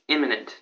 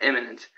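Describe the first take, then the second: First: "imminent" with a clear short i first; intended word imminent. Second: "imminent" said as "eminent"; mistaken word eminent. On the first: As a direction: say "imminent" starting like "in". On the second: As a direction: open "imminent" with an eh sound. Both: Shown as a demonstration. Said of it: "it was the other one".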